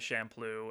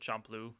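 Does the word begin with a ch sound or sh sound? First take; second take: sh sound; ch sound. First: The word begins with a soft sh sound. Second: The word begins with a hard ch sound. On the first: "sounds more like alliteration with samurai" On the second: "as opposed to"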